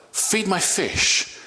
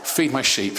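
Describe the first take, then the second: First: "Feed my fish" said slowly as a joking misquote; slow, deliberate slip: fish instead of sheep; playful misquote of "Feed my sheep"; wrong word slip. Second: Said in the usual way. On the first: Shown as a demonstration. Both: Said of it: "There you go".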